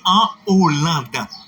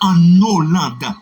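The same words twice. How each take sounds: First: No n sound links into Hollande. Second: The n sound links into Hollande. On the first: The speaker calls it right. "achat aspiré, on dit en Hollande" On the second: The speaker calls it wrong. "on ne dit pas en Hollande"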